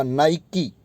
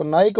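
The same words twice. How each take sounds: First: नाइकी with a final ee, nai-kee; brand pronunciation. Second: नाइक as one syllable, ending on k; silent final vowel. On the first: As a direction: sound the last ee in नाइकी. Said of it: "उसमें ई नहीं बोला जाएगा". (Brand वाला नाइकी, अंत में ई) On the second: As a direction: stop नाइक at the k, no ee. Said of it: "कुछ लोग इसको नाइक बोलते हैं". (नाइक, अंत में ई नहीं) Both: Shown as a demonstration.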